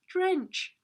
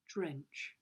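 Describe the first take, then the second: First: The word is said in a happy tone. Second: The word is said in a sad tone. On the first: The speaker calls it wrong. "Can you say it happy?" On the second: The speaker calls it right. "It's a sad word"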